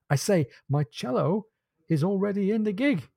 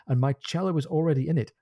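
First: "my cello is already in the gig" higher and spaced out; insistent repeat. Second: Said in the usual way. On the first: A narrator's reading. Stephen presses Jack to hurry to the boat, insistent repeat. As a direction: pause after "cello", then lift "is already in the gig".

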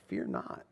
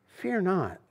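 First: Whispered, much softer, tender; voiceless whisper of reassurance; hushed whisper. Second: Said in the usual way. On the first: Acted. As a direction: breathe it as a gentle comfort. God's closing words, hushed.

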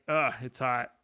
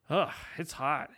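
First: A light groan of annoyance at the heat; "Ugh, it's hot" tossed off, only lightly fed up; mock complaint about the weather, barely bothered; mild disgust. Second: "Ugh, it's hot" drawn out slowly and more weary; mock complaint, heavier and slower; slower disgust. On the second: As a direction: stretch it, sounding worn down by the heat. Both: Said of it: "varying levels of just disgust".

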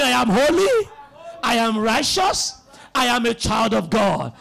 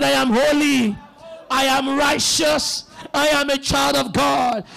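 First: Said in the usual way. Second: Louder, emphatic preacher's confession; loud declaration. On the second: Shown as a demonstration. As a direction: proclaim it loudly for the congregation to repeat. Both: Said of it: "Say it loud again".

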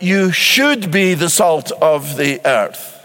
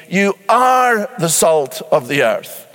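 First: Slow, should leaned on as the wrong wording; preacher quoting the wrong version, slow, stress on should. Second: Slow, are leaned on, falling close; stress on are. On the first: Preacher sets the misquote against the verse, should stressed. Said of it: "Jesus does not say". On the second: Preacher quoting the verse to the congregation, are stressed. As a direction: give are the weight, slowly. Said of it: "Rather, he says". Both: Shown as a demonstration.

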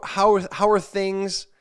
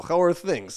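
First: Slow, stumbling read of a broken text message, higher and louder; halting read-out. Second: "How are things?" in a light mock Russian accent. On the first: Retold or imitated. Reading out the scammer's message, slow and stumbling. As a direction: sound out the clumsy message word by word. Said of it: "it sounds almost like if you read it in Russian". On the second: Shown as a demonstration. Showing how the scam text sounds in Russian, mock Russian accent. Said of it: "if you read it in Russian, you go".

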